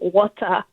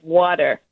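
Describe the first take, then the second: First: The word is said with a Nigerian pronunciation. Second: The word is said with a non-Nigerian pronunciation. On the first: This is how the family says it. "we're Nigerian and we say water" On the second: This is how others say it. "instead of"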